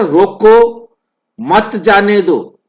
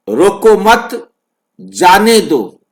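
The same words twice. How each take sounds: First: High "रोको", break, then "मत जाने दो" together; pause after रोको. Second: Slow "रोको मत" as one unit, break, "जाने दो"; pause after मत. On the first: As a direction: stop sharply after "रोको" before "मत". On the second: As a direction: move the gap to between "मत" and "जाने". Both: Shown as a demonstration. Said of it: "ये जो बीच का gap है".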